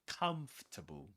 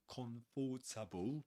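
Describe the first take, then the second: First: The word is said in three syllables. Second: The word is said in four syllables. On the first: The speaker calls it right. "but comfortable" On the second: The speaker calls it wrong. "We don't say comfortable"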